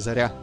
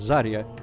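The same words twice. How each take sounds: First: The stress is on the second syllable. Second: The stress is on the first syllable. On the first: The speaker calls it right. "it's supposed to be Zarya. The second syllable is the one you want to say louder" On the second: The speaker calls it wrong. "everyone pronounces it wrong because everyone says Zarya"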